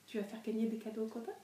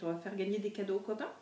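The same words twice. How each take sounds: First: Soft, fast question to a dog; talking to a dog. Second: Said in the usual way. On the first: Real, not acted. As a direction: ask the dog playfully, softly. Asking the dog. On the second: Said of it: "repeats to the dog".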